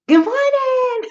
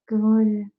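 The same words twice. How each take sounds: First: It is said brightly with cheerful energy. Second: It is mumbled flatly, barely moving the mouth.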